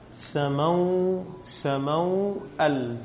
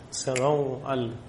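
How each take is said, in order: First: سموأل drawn out syllable by syllable, very slowly; teacher dictating سموأل slowly to the class; slow spelling-out. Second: سموأل said slowly and lower, as if writing it; slow dictation. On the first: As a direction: stretch سموأل so the class hears each sound. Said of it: "على إيش أرسمها؟". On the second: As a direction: draw out سموأل for the board. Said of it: "أو على". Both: Shown as a demonstration.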